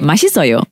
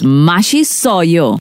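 First: The syllables flow smoothly in a relaxed, natural way. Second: Each syllable is pushed out with forced, heavy enunciation. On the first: The speaker calls it right. "you can sound a little more relaxed and natural" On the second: The speaker calls it wrong. "You don't have to try so hard to, you know, like give that enunciation"

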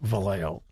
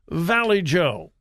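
First: It is said as one Spanish-style name. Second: It sounds like the two English words 'valley joe'. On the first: The speaker calls it right. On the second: The speaker calls it wrong.

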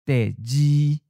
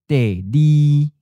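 First: The second syllable begins with a j sound. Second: The second syllable begins with an l sound. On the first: This is the traditional pronunciation. "the J sounds like J" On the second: This is the newer merged pronunciation. "merge with the letter L or L sound"

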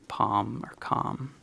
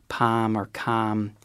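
First: The vowel is not fronted. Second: The vowel is fronted, Boston-style.

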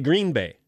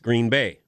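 First: The stress falls on Green. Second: The stress falls on Bay. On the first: The speaker calls it wrong. "They put the emphasis on the first word" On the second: The speaker calls it right. "It's Green Bay"

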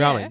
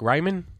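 First: The word is said like rah-men. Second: The word is said like Raymond. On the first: The speaker calls it right. "Is that how you say it?" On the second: The speaker calls it wrong. "If you say it that way, you get looked at very funny"

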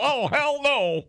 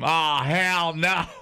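First: It is said in a dramatic old-time newsreel voice. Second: It is said in a plain, modern voice.

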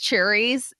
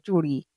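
First: The word is said with an anglicized accent. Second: The word is said with a native Punjabi accent. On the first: The speaker sounds like a diaspora outsider. The speaker calls it wrong. "NRI pronunciation" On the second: The speaker sounds like a native speaker. The speaker calls it right. "you don't know how to say churi?"

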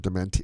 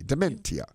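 First: The ending is said as a single 'sha' sound. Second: The ending is said as separate 'tee-ah' sounds.

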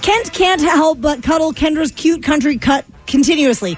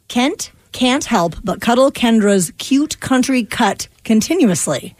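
First: The sentence is spoken quickly. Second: The sentence is spoken slowly. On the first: "Three times fast" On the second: "One time slow"

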